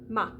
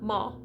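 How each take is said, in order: First: The vowel is made further forward. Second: The vowel is made further back. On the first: The speaker calls it right. "bring the tongue forward just a little bit more" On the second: The speaker calls it wrong. "Not ma"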